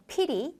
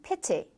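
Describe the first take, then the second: First: Soft American T in pity; 미국식 pity; American pronunciation. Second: British pity, clear T; 영국식 pity; British pronunciation. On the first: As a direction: pity with a flapped T, like piRi. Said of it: "미국 영어에서 pity". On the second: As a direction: pity with a crisp T. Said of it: "영국 영어에서는 pity". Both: Shown as a demonstration.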